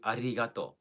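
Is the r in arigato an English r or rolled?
rolled. The r is rolled, as in Japanese. "Like the R sound in Japanese ... the rolling R"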